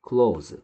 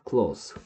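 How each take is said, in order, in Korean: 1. 단어는 윙 울리는 z 소리로 끝나요. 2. 단어는 쉭 새는 s 소리로 끝나요. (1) "close라고 발음하면 그때는 동사입니다" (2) "close라고 발음하면 형용사로서 가까운"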